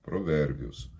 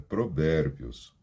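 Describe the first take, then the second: The two takes are said the same way.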